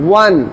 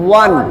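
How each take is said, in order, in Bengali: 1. শব্দটি গোল ঠোঁট দিয়ে শুরু হয়, w গ্লাইড দিয়ে। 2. শব্দটি গোল ঠোঁট দিয়ে শুরু হয়, w গ্লাইড দিয়ে।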